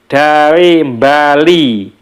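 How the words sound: Bali begins with a nasal m before the b. This is how a Javanese speaker says it. "kalau orang Jawa itu mengatakan ... padahal tulisannya tidak ada M-nya di awalnya"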